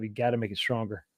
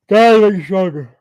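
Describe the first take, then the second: First: Said in the usual way. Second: Loud, high, forceful repeat; emphatic shout. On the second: Shown as a demonstration. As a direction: belt it out for emphasis.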